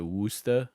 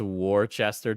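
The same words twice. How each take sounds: First: Worcester as WUSS-tuh in a New England accent. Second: Worcester as WAR-chester, every part sounded; pronounced as spelled. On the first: Explaining how New Englanders say Worcester, New England accent "Wuss-tah". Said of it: "you got the New England accent". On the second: Streamer voicing a viewer's guess, Worcester read as WOR-chester. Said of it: "I thought it was pronounced". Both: Shown as a demonstration.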